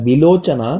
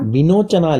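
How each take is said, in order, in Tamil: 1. நடுவில் இருக்கிற எழுத்து L ஒலி. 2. நடுவில் இருக்கிற எழுத்து N ஒலி. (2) "வினோச்சனா இல்ல"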